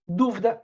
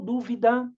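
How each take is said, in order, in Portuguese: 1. A palavra é falada em duas sílabas. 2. A palavra é dita com três sílabas completas. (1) "ele vai falar que viram de sílabo" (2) "aqui a gente tem uma tendência, às vezes, de ler como"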